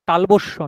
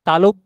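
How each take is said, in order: First: The word is said as talobosso, with an added s. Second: The word is said as talobbo, with no additions. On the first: The speaker calls it wrong. "তালবস্য নয়" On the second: The speaker calls it right. "তালব্য স"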